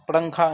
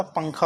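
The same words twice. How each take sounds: First: पड़ंखा with an extra ड़ sound, wrong; पड़ंखा with the inserted flap; wrong form. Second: पंखा with a plain nasal before kh; पंखा, the correct pronunciation; correct form. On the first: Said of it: "पड़ंखा नहीं होता". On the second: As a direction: say पंखा cleanly. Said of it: "पंखा होता है". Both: Shown as a demonstration.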